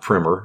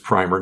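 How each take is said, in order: First: Pronounced like the word for a basic reading book. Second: Pronounced like the word for a paint undercoat. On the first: The title would refer to an introductory book. The speaker calls it wrong. "not primer, even though it's a book" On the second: The title refers to a first coat of paint. The speaker calls it right. "it is primer"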